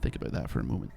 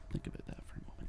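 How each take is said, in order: First: Said in the usual way. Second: Fast, breathy whisper; hushed whispered repeat. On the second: Shown as a demonstration. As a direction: whisper it like a secret.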